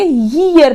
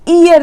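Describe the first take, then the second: First: The word begins with a consonant y sound. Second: The word begins with a plain ee vowel. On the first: The speaker calls it right. "ईयर बोलेंगे" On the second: The speaker calls it wrong. "इसको ईयर नहीं बोलेंगे"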